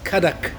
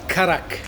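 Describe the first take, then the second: First: The middle consonant is a D sound. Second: The middle consonant is an R sound. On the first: The speaker calls it right. "I always write it with a D" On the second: The speaker calls it wrong. "not Karak"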